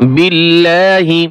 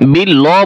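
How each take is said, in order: First: The word ends with an added i vowel. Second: The word ends on the h sound. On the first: The speaker calls it right. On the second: The speaker calls it wrong. "বিল্লাহ বলবেন না"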